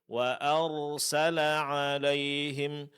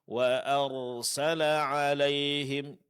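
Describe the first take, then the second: Both takes have the same delivery.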